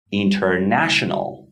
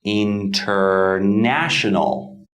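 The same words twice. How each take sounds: First: International at normal pace; model word. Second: International said slowly, syllable by syllable; slow model word. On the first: Teacher repeats the example at normal speed. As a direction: say international naturally. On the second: Teacher models a new example slowly for learners. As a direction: stretch out International carefully. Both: Shown as a demonstration. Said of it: "model word for stress".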